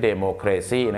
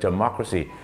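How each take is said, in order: First: It is said with Thai-style transliterated pronunciation. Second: It is said with English-style pronunciation. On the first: The speaker calls it wrong. "ไม่ใช่" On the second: The speaker calls it right. "ประชาธิปไตยต้องเป็น"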